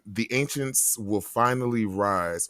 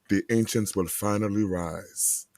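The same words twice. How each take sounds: First: It is read in an ordinary speaking voice. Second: It is read in a put-on character voice.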